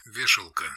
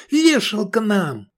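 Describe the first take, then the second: First: Said in the usual way. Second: High, slow despairing cry; panicked yell. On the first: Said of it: "Военный жаргон". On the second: A narrator's reading. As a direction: wail that it's over. Navigator panics.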